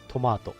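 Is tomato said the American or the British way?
British. The middle vowel sounds like 'mah'. "イギリス英語だと"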